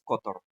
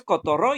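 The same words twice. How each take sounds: First: "cotorro" as CÓ-to-rro; wrong CÓ-torro, accent on the front; stress on first syllable. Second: "cotorro" as co-to-RRÓ; wrong co-to-RRÓ, accent on the end; stress on last syllable. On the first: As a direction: push the opening CO of "cotorro". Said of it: "tampoco es cotorro". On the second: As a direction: push the final RRO of "cotorro". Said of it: "No es cotorro". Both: Shown as a demonstration.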